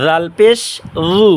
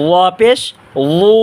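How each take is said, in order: First: লু as a thin, voiced dhu; tongue tip at front teeth, keep লু light; thin dhal. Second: লু as a heavy, voiced dhu; thick zha. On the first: Teacher showing viewers dhal, thin voiced th in লু. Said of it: "সামনে দাঁতের আগা চিকন আওয়াজ". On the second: Teacher contrasting letters for viewers, thick heavy লু. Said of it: "আর ওয়া মোটা করব". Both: Shown as a demonstration.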